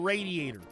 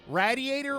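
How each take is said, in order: First: The first syllable sounds like 'raid'. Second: The first syllable sounds like 'rad'. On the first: "or is it raid?" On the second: "Is it rad"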